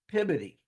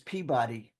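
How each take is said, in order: First: The name is pronounced the local Massachusetts way. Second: The name is pronounced as it is spelled. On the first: "in Massachusetts they pronounce it Peabody" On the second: "it says Peabody"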